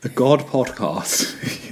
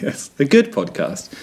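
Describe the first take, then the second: First: "God" said slowly with an open "ah" vowel, drawn out; misheard God. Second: "good" with a short rounded "oo" vowel, laughing slightly; corrected good. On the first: Host slowly repeating the misheard word, saying "God" broadly. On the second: Host correcting the title, stressing "good" with a short vowel. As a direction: laugh and set it right with a clear "good". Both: Shown as a demonstration.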